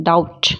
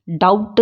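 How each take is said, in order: First: डाउट ending on a bare t; silent B. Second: डाउट with a lip stop before t; डाउट with the b heard; sounded B. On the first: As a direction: say डाउट as dowt. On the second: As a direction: say डाउट as dowbt. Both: Shown as a demonstration. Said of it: "डाउट नहीं बोलते हैं".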